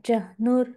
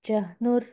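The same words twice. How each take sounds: Both takes have the same delivery.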